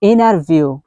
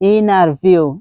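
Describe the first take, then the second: First: The t after the n is dropped. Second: The t after the n is dropped.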